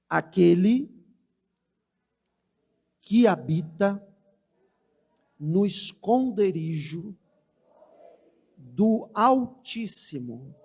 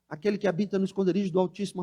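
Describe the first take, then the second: First: It is read slowly, with pauses. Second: It is read quickly, rushed.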